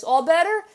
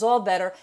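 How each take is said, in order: First: Higher, hopeful rising "All better?" from the mother; asking mom. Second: Put-on the child accepts it, falling and content; child agreeing. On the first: Retold or imitated. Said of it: "mom gives her a hug". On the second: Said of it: "Child says".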